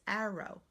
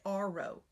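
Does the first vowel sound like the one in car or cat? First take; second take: cat; car. First: The first syllable has a short vowel like 'cat'. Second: The first syllable sounds like the word 'are'. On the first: The speaker calls it right. "It's arrow" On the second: The speaker calls it wrong. "We don't say r row"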